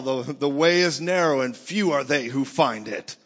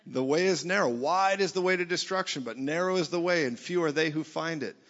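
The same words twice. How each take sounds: First: Loud, heavy scripture quote as a verdict; condemning religion. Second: Said in the usual way. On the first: Acted. Religion quoting scripture against churchgoers, loud and condemning. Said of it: "religion tells you". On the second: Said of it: "I agree".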